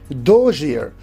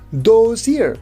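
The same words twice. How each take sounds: First: The end of 'those' sounds like zh. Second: The end of 'those' is a clear z. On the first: The speaker calls it right. "You can see z is replaced by j" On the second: The speaker calls it wrong. "not those year"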